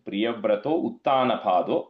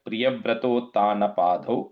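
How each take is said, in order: First: The two words are said separately, not merged. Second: The two words are merged into one word. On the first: The speaker calls it wrong. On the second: The speaker calls it right.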